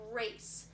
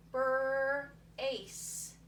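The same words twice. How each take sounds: First: Said in the usual way. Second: "Brace" split slowly into "brrr" and "ace"; sounded-out word. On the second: Shown as a demonstration. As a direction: stretch the Br of "Brace", then land on "ace". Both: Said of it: "I'm thinking about my alphabet".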